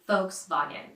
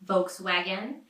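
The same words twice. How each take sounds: First: It is said with the original German sounds. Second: It is said with American sounds. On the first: "say it right with the original pronunciation" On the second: "adjusted to American sounds"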